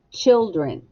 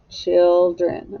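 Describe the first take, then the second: First: Said in the usual way. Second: Put-on Children drawn out as chil, dren; two stretched beats on Children; split into syllables. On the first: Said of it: "echo the word". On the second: Shown as a demonstration. Teacher reading back the spelling, Children syllable by syllable. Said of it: "let's spell the second syllable".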